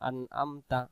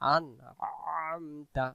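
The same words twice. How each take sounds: First: The second vowel starts with a plain glottal stop. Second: The second vowel starts with a squeezed throat sound. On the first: The speaker calls it wrong. "আইন অক্ষর উচ্চারণ হলো না। ... আমার মুখে উচ্চারণ হয়ে গেছে হামজা অক্ষর।" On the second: The speaker calls it right. "যখনই কোরআন মাজিদে আইন দেখব তখন উচ্চারণটা একটু গলার চাপ দিয়ে পড়ব।"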